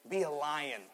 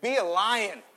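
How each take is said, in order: First: Said in the usual way. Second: "Be a lion" said higher and louder, bold; loud rousing call. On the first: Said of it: "look at your neighbor and say". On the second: Shown as a demonstration. Preacher urging the church to say it boldly, loud call. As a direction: shout "Be a lion" to rally them. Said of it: "Let's try again".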